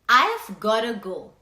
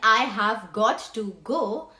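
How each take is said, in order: First: The words are contracted to I've gotta. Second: The words I have got to are said in full. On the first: "you say" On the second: "instead of saying"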